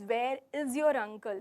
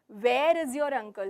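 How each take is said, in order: First: The word 'is' carries the main stress. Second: The word 'where' carries the main stress. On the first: He has not been seen around. "if I'm stressing on is" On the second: The question asks about the place. "So here I'm asking, where is he? The venue, the place"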